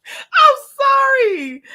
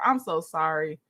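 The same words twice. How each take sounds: First: High, loud apology through helpless laughter; laughing apology. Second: Said in the usual way. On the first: Real, not acted. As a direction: squeal out sorry while cracking up. Apologizing while laughing at herself.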